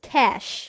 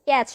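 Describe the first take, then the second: First: The word ends with an sh sound. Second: The word ends with a ch sound. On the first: The speaker calls it right. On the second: The speaker calls it wrong. "ক্যাচে কিংবা ক্যাচ নয়"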